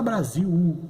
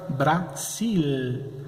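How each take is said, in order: First: Brasil said as Brasiu, L turned into a u; vocalized L. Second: Brasil with a firm clear final L, tongue on the ridge; Brasil, Spanish final L. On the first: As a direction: Brazilian Brasil ending in a u sound. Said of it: "como se fosse um U". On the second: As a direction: end Brasil on a real L. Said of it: "em espanhol, vai ficar Brasil". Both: Shown as a demonstration.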